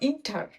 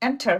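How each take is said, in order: First: The first vowel sounds like 'i' in bid. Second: The first vowel sounds like 'e' in bed. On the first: The speaker calls it wrong. "Not ইন্টার" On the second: The speaker calls it right. "হয়ে যাবে এন্টার"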